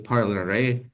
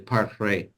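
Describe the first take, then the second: First: The middle vowel is pronounced, giving three syllables. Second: The middle vowel is dropped, giving two syllables. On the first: "they won't say parlerai" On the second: "they'll say parlerai"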